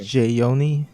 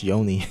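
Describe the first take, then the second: First: The name begins with a J sound. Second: The name begins with a Y sound.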